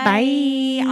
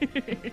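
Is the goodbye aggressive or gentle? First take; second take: aggressive; gentle. First: The goodbye sounds aggressive. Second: The goodbye sounds gentle.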